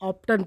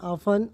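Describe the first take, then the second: First: The t sound is pronounced in the middle. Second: The t sound is silent in the middle. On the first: The speaker calls it wrong. "Student ऑप्टन पढ़ देते हैं जो कि वो गलत है" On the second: The speaker calls it right. "सही इसका रीडिंग है ऑफन"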